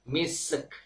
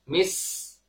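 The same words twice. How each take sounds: First: The s has a bouncing release before the k. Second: The s flows smoothly before the final k. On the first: The speaker calls it wrong. "membaca dengan mantul pada huruf sin sukun" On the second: The speaker calls it right. "Sempurnakan huruf sin, alirkan suaranya"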